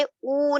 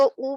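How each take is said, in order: First: او drawn out into "ooo"; lengthened او; stretched long u. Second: او said as a brief "u"; quick short او, as in "put"; short unstretched u. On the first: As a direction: hold او long, as the mistake. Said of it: "او نہیں پڑھیں گے". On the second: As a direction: keep او short, no stretching. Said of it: "اس کو کھینچنا نہیں ہے". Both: Shown as a demonstration.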